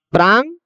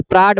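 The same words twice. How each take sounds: First: प्रांग ending in a velar ng; correct nasal ending. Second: प्राड ending in a hard ड; misreading with d. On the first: Teacher showing students how to read the word, correct nasal ending. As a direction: say प्रांग with ङ at the end, no hard d. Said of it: "यहाँ ङ है". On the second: Teacher warning students off a misreading, hard d ending. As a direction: say प्राड with a d in place of the nasal ङ. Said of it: "ये प्राड मत पढ़िएगा". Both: Shown as a demonstration.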